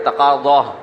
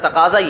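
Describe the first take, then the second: First: The z is a heavy, emphatic Arabic sound. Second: The z is a plain, light z sound. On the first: The speaker calls it wrong. "हमने तलबा को देखा तकाज़ा, ज़ाद भी निकाल रहे होते हैं" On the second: The speaker calls it right. "इसका तकाजा ये है"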